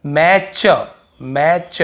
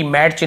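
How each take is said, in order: First: "मैच" drawn out as "ma-chuh", no T; silent T. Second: "मैच" as "mat-ch", with a T before the ch; wrongly sounded T. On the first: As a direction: say "मैच" slowly in two parts without any T. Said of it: "यहाँ पर भी टी". ("मैच" बिना टी के, खींचकर) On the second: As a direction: slip an audible T into "मैच". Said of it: "टी मैच नहीं हो रहा". ("मैच" में च से पहले टी की आवाज़) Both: Shown as a demonstration.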